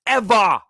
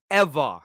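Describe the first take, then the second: First: "ever" punched high and loud; "ever" stretched out with full force; emphatic ever. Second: Said in the usual way. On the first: Real, not acted. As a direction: hit "ever" hard and high. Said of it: "repeated with emphasis". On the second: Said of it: "echo after emphatic take".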